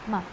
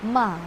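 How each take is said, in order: First: The syllable is short and light, without contour. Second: The pitch dips down then rises. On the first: "Yung light lang, simple lang" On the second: "pababa, and then pataas"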